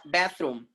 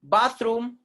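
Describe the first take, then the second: First: Bathroom with a as in cat; American pronunciation. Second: Bathroom as "BAHTH-room", high; long ah in bathroom, rising; British pronunciation. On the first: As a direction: say bathroom as "BATH-room", falling. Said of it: "And American people". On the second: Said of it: "is British sound". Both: Shown as a demonstration.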